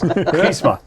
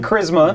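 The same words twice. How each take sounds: First: The R is rolled with a trill. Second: The R is said plainly, not rolled. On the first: "I'm rolling that goddamn R" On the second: "I have been saying charisma"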